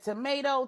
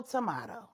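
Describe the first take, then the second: First: "Tomato" said as tuh-MAY-toh, higher; first "Tomato" with a long ay vowel; tomato one way. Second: "tomato" said tuh-MAH-toh, softer with a rise; second "tomato" with an ah vowel and a flapped t; tomato the other way. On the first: Mom Brenda brushes off the Queen Mother, "Tomato" said tuh-MAY-toh. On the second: Mom Brenda brushes off the Queen Mother, "tomato" said tuh-MAH-toh. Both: Acted.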